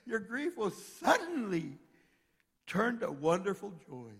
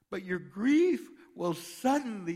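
First: Slow, higher, stress on "suddenly" before a pause; slow emphatic repeat. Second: Slow, loud, every word of "your grief will suddenly" leaned on; slow emphatic reading. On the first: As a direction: stretch "your grief will suddenly" and land hard on "suddenly". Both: Shown as a demonstration. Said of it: "here it is again".

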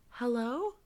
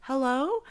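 First: A hint of a small child asking into the phone line; little girl's voice. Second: Put-on a slightly higher, louder little girl's hello, calling out; lightly played child calling again into the phone. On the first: Ghostly girl on the phone line, a mild little-girl hello. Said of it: "it's a little girl's voice going". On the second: Ghost girl heard again on the call, a louder child's hello. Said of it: "the voice again was like".

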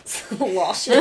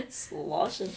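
First: Giggling through the word; laughing. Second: Said in the usual way. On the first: Real, not acted. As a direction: laugh it out while saying it.

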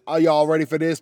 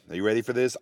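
First: Higher, louder hype call with y'all; hyped rephrase. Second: Said in the usual way. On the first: Shown as a demonstration. Asking viewers again with more hype, louder crowd call.

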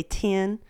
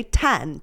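First: "ten" pronounced like tin; Texan vowel. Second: "ten" with an open eh; non-Southern vowel. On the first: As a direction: raise the vowel in "ten" to a short i. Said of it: "But people in Texas, we say". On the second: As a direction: say "ten" with the neutral eh of bed. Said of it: "People that aren't from the South say ten". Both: Shown as a demonstration.

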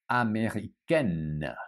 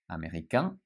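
First: Américaine ending on a sounded N; Américaine with the final consonant pronounced; feminine ending with N. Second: Américain ending on a nasal vowel, no N; Américain with the final consonant silent; masculine nasal ending. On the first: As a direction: say Américaine with a clear N at the end. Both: Shown as a demonstration. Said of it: "So remember the difference".

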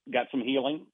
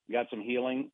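The two takes are said the same way.

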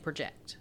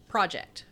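First: "project" as pruh-JECT, the verb; stress on second syllable. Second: "Project" as PRAH-ject, the noun; stress on first syllable. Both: Shown as a demonstration. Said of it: "here's an example of a stressed syllable".

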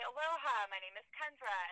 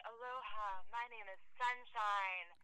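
First: Said in the usual way. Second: Softer, drawn-out hippie greeting; mock hippie introduction. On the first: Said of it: "I say, 'Aloha". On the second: Comic retelling how hippies introduce themselves, lightly mocking slow voice. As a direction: introduce yourself slowly, lightly imitating a spiritual hippie. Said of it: "And they say".

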